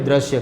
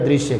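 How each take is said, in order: First: The first syllable is said as 'dra'. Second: The first syllable is said as 'dru'. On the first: The speaker calls it wrong. "આપણે શું કહીએ? દ્રશ્ય કહીએ છીએ" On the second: The speaker calls it right. "હકીકતમાં શું કહેવાય? દૃશ્ય કહેવાય"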